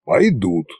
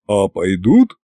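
First: Measured, approving confirmation; understated, certain answer. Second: Slightly lowered, gruff question; lightly voiced deep dragon head; bass dragon head. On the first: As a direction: confirm it as the tsar in charge. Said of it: "одобрительно покосился на меня Кощей". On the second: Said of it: "пробасила правая". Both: A narrator's reading.

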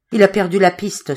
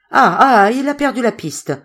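First: Understated, short-of-breath report. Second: High exclamation after a loud "ah, ah"; excited reaction. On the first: Zoé, stifled, reports he lost the trail, mildly breathless. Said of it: "souffla Zoé, qui étouffait". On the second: Hearer repeats Zoé's news of the lost trail, excitedly. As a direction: seize on the news with a burst of excitement. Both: A narrator's reading.

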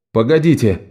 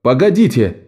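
First: Said in the usual way. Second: «Погодите!» called out sharply, falling; a mild narrated cry of «Погодите!» to stop them; calling out. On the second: A narrator's reading. (Лок выкрикивает «Погодите!», лёгкий окрик) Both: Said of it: "выкрикнул Лок".

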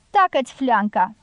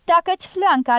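First: First "Tacă-ți fleanca!" only a little raised, held back; mild shout. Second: "Tacă-ți fleanca" flung out high and loud; furious outburst. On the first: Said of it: "strigă femeia lui Pablo". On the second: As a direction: explode with savage rage on "Tacă-ți fleanca". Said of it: "izbucni cu o furie sălbatică nestăpânită". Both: Acted.

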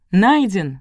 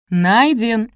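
First: Mildly raised crowd shout; crowd yell. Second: High, loud roared answer; louder crowd yell. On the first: Crowd answers the cloaked figure, yelling mildly. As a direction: call back with some force. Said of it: "завопила толпа". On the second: Crowd answers the figure, yelling with more force. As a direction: bellow it back, high and drawn out. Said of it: "заорала толпа ещё сильнее". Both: A narrator's reading.

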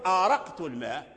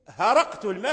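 First: آرقت said with a glottal stop and long a; hamza form. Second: هرقت said with an h where the hamza was; ha substitution. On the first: Teacher gives the standard hamza form آرقت. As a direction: open آرقت الماء with a hamza. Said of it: "تقول آرقت الماء". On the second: Teacher contrasts هرقت with آرقت. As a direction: stress the h in هرقت الماء. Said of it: "فتقول". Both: Shown as a demonstration.

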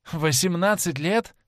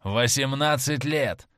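First: Laughing question. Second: Said in the usual way. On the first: A narrator's reading. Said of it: "рассмеялся Дориан Грей". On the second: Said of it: "ответил человек".

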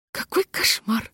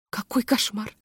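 First: Slow, voiceless Какой кошмар; whisper. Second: Soft, strained Какой кошмар; whispering. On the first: Hostess repeats it in a horrified whisper. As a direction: whisper Какой кошмар almost without breath. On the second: Hostess whispers in horror while smiling. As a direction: breathe Какой кошмар through a frozen smile. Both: A narrator's reading. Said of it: "шептала хозяйка".

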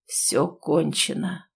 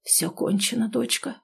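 First: Very slow, softer, lower doom; hollow tragic declaration; tragic pronouncement. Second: Soft, hopeless whisper; quiet defeated murmur; doomed whisper. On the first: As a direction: let each word fall like a verdict. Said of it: "трагично произнёс". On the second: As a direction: breathe it out, resigned to the end. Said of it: "обречённо прошептал". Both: A narrator's reading.

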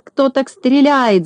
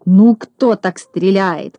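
First: High, slow exasperated yell; exasperated shout. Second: Slow irritated scolding. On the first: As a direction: throw up your hands in exasperation. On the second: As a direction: scold the bad shot. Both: A narrator's reading. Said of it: "закричал с раздражением Клопс".

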